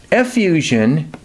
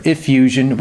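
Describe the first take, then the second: First: "Effusion" with an open EH at the start; first pronunciation variant. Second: "effusion" with a closer IH or EE at the start; alternative pronunciation. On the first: Teacher introducing a term, "Effusion" pronounced eh-FEW-zhun. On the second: Teacher offering another way, "effusion" pronounced ih-FEW-zhun. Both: Shown as a demonstration. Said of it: "whatever way you want to say it".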